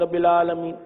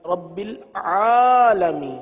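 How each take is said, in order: First: Said in the usual way. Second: العالمین drawn out slowly with a full ع from the mid throat; clear ع sound. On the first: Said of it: "عالمین کو عالمین پڑھتے ہیں". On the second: Shown as a demonstration. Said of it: "عین کی ادائیگی بھی درست".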